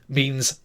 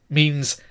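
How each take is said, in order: Both takes have the same delivery.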